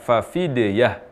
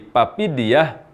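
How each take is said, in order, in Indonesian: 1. Kata ini dimulai dengan bunyi f. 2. Kata ini dimulai dengan bunyi p. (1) "ketika mengucapkan kata fafidiyah" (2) "menjadi papidiyah, ini perubahan huruf fa menjadi huruf p"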